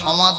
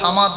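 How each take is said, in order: First: The first vowel is a darker, rounded 'o'. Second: The first vowel is an open, light 'a'. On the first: The speaker calls it right. "সমাদ বলবো" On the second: The speaker calls it wrong. "বলবো না"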